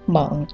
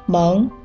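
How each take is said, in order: First: The syllable is said with a dipping tone. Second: The syllable is said with a rising tone. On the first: "三声" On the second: "二声"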